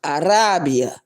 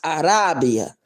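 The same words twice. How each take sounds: Both takes have the same delivery.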